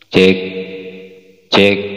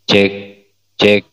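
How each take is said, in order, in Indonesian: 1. Suaranya ada sedikit gema yang memudar. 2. Suaranya kering, tidak ada gema. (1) "Sudah kurang ya, sudah kurang" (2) "Echonya sudah enggak ada. Jadi suaranya seperti original"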